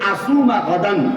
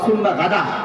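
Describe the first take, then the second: First: The last word ends with an n sound. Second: The last word ends without the n sound. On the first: It means fasting tomorrow. The speaker calls it right. "শব্দটা হচ্ছে আসুমা গাদান" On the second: It turns the word into a different word meaning a pile. The speaker calls it wrong. "আর আমরা বলি ... গাদা বানিয়ে দিলাম"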